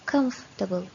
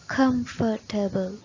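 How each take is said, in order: First: The word is said with three syllables. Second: The word is said with four syllables. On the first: The speaker calls it right. "it has only three syllables with the stress of the first syllable" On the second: The speaker calls it wrong. "they say it with four syllables. Comfortable, which is wrong"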